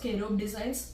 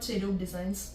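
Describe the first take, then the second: First: The name begins with a k sound. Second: The name begins with a ch sound. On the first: The speaker calls it right. "It's കെരൂബ് designs" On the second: The speaker calls it wrong. "Not ചെരൂബ് designs"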